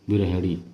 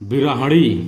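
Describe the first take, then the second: First: The ending sounds like hini. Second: The ending sounds like hani. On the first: The speaker calls it right. "हिणी होगा" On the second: The speaker calls it wrong. "बिरहणी का शुद्ध रूप है बिरहिणी"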